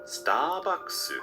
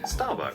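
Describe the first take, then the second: First: It is said with lengthened Japanese-style sounds. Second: It is said with plain English pronunciation.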